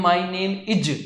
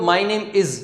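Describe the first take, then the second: First: Is said as "ij" with a hard j sound; "My name is" with is said like इज; the learner's wrong "ij" sound; wrong pronunciation. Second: "My name is" ending in a clean z sound; is said properly, not इज; correct pronunciation. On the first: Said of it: "तो इज नहीं होता". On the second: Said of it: "is बोलते हैं इसको, इज नहीं बोलते हैं". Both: Shown as a demonstration.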